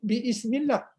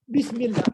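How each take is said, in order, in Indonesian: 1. Ada vokal terpisah setelah 'bi' sebelum 'smillah'. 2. 'Bi' langsung menyambung ke 'smillah' tanpa vokal. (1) "tambah bi depannya jadi biismillah" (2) "maka dibuang alif tu jadi bismi"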